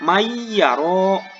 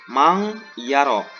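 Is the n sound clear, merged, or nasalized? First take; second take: merged; nasalized. First: The n merges fully into the following y. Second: The n becomes a hidden nasal ng sound. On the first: The speaker calls it right. "dimasukkan ataupun dileburkan" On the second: The speaker calls it wrong.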